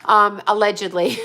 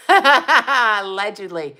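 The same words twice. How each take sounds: First: Said in the usual way. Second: Slow, laughing "Allegedly"; knowing laugh on "Allegedly". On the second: Shown as a demonstration. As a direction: drag out "Allegedly" through a laugh. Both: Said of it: "says allegedly twice".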